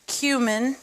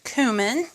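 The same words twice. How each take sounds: First: "cumin" said as KYOO-min; slow KYOO-min, first syllable like "cue"; alternate pronunciation. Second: "cumin" said as KOO-min; KOO-min, first syllable like "coo"; alternate pronunciation. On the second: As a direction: say "cumin" with a plain oo, no y-sound. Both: Shown as a demonstration. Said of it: "arguments over how it's pronounced".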